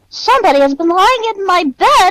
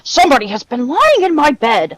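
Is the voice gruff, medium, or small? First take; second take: small; gruff. First: The voice is small, high and tiny. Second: The voice is big, deep and gruff. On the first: A small baby is speaking. "said the small wee" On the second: A large father figure is speaking. "said Father Bear in his great, gruff voice"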